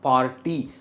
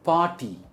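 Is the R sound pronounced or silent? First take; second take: pronounced; silent. First: The R sound is pronounced. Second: The R sound is silent. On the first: The speaker calls it wrong. "and not party" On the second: The speaker calls it right. "Again इसमें R pronounce नहीं हो रहा है"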